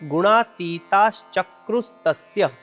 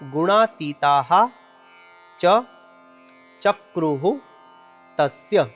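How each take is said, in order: First: The words are joined into one word with sandhi. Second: The words are said separately, without sandhi joining. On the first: "આખો શબ્દ ભેગો થઈ ... આ પ્રમાણે તેનું ઉચ્ચારણ કરવાનું છે" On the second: "ત્રણ શબ્દો છૂટા છૂટા છે"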